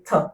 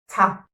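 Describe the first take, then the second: First: The consonant is followed by only a short schwa. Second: The consonant is followed by a full 'ah' vowel. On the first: The speaker calls it right. "If you were schooled better" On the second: The speaker calls it wrong. "you would say ta"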